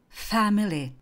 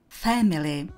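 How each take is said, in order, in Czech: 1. Britský přízvuk, první samohláska blíž k 'a'. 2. Americký přízvuk, první samohláska blíž k 'e'. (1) "britská" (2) "americká"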